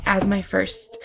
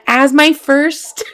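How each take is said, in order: First: Said in the usual way. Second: "as my first" said higher, louder and slow, rising; excited emphasis. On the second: Real, not acted. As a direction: stretch out "as my first", building excitement.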